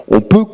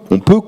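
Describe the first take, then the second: No difference in how they are said.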